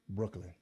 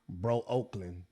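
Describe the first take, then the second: First: It is said as one smooth word. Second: It is split into two parts, bro and oakland. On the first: This is how locals say it. The speaker calls it right. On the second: This is a mistaken way an outsider might say it. The speaker calls it wrong.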